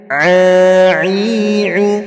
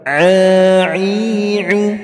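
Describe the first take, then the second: Both takes have the same delivery.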